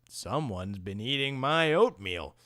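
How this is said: It is said in a deep Papa Bear voice.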